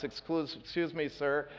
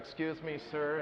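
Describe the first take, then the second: First: Softly, a gentle apology leaning past her; soft polite excuse. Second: Much softer, nearly under the breath; softer polite excuse. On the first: To the upset woman by the window, soft and polite. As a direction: say it softly so as not to startle. Speaker says it to Krista at the blinds. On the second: Reaching across the frightened passenger, hushed and gentle. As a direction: murmur it gently while reaching past her. Says it again while lowering the blinds. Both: Retold or imitated.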